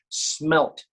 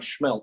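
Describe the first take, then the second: First: The word begins with a plain s sound. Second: The word begins with an sh sound. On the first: The speaker calls it right. "not schmelt" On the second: The speaker calls it wrong. "All you guys up there say you put an H in it"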